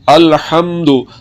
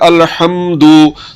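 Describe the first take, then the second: First: The final vowel is short. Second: The final vowel is drawn out long. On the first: The speaker calls it right. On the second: The speaker calls it wrong.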